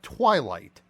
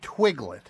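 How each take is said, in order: First: The word is said with a long 'eye' sound. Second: The word is said with a short 'ig' sound. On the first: The speaker calls it right. "you're not talking about Twilight" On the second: The speaker calls it wrong. "You're saying Twiglet"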